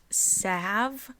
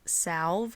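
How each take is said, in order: First: The L is silent in the word. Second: The L is clearly pronounced in the word. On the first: The speaker calls it right. "pronounced salve with a silent L" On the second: The speaker calls it wrong. "and not salve"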